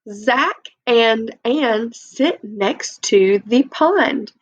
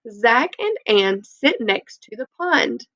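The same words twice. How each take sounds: First: It is read slowly and plainly. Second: It is read quickly and with expression.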